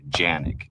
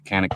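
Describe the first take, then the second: First: The name begins with a J sound. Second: The name begins with a K sound.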